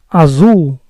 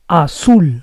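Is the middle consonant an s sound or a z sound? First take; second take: Z sound; S sound. First: The middle consonant is a buzzing z sound. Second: The middle consonant is a hissing s sound. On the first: The speaker calls it wrong. "the letter Z in Spanish sounds like S, never Z" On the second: The speaker calls it right. "so it has to be azul"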